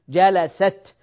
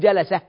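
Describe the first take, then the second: First: The word ends with a t sound. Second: The word ends with an h sound. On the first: The speaker calls it right. "نقف عليها بالتاء" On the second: The speaker calls it wrong. "ما نقول جلسة"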